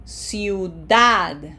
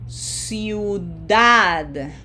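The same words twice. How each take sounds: First: Ciudad a little quicker, with DAD punched; Ciudad, last syllable stressed and held. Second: Ciudad slowly, i and u both sounded, DAD stressed; each vowel pronounced. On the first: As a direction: hit the final DAD of Ciudad. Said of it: "That has emphasis". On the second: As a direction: stretch out Ciudad so every vowel is heard. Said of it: "we have to pronounce each vowel". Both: Shown as a demonstration.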